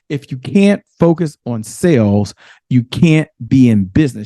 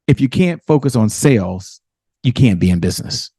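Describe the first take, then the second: First: It is said a little more slowly. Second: It is said at a normal pace.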